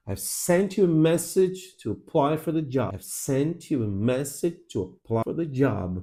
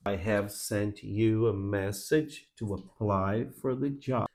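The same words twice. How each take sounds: First: "I've sent you a message to apply for the job" with beats on SENT, MESS, PLY, JOB; stressed content words. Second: Slow, soft "I have sent you a message", every word in full; slow unreduced reading. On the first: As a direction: punch "sent", "message", "apply", "job", reduce everything between. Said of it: "Essas são as sílabas fortes". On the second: Demo sentence before reduction is shown. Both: Shown as a demonstration.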